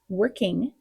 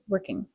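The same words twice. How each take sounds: First: The -ing ending is full and clear. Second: The -ing ending is softer and less stressed.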